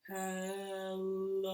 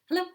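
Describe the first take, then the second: First: It is said very slowly. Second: It is said very fast.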